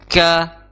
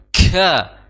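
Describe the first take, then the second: First: The k is released plainly, without extra breath. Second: The k is released with heavy, exaggerated breath. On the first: The speaker calls it right. "jadi biasa saja ... tidak berhembus yang berlebih" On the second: The speaker calls it wrong. "fokus oh mentang-mentang huruf kaf ini memiliki sifat hamas ... Maka ini kurang tepat"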